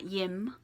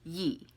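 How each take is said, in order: First: The word ends with an audible m sound. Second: The word ends on the vowel, without m. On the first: The speaker calls it wrong. "not yim" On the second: The speaker calls it right. "it's yi. Again, the last consonant you don't pronounce"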